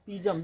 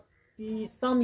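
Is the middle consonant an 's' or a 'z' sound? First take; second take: z; s. First: The middle consonant is a 'z' sound. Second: The middle consonant is an 's' sound. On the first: "पीसम या पीजम, दोनों कह सकते हो" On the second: "पीसम या पीजम, दोनों कह सकते हो"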